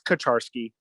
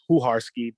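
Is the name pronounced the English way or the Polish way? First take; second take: English; Polish. First: The name is pronounced the English way. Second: The name is pronounced the Polish way. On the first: "but it's Kucharski" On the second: "that's how they would say it probably in Poland"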